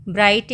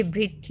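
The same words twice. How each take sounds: First: ब्राइट said with a long "aai" as in bright; bright, correct reading. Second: ब्रिट said with a short "i", rhyming with fit; wrong spelling read out. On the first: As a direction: read ब्राइट with the full "aai" sound, like bright. (ब्राइट को "आइ" की लंबी आवाज़ के साथ बोलें) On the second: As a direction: read ब्रिट short and clipped, as the misspelling sounds. (ब्रिट को छोटी "इ" के साथ, गलत स्पेलिंग की तरह बोलें) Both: Shown as a demonstration. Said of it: "अब ये ब्रिट लिखा हुआ है".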